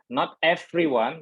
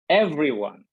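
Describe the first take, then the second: First: The v sound is voiceless, without vibration. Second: The v sound is voiced, with vibration. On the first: The speaker calls it wrong. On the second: The speaker calls it right. "there are a little vibration"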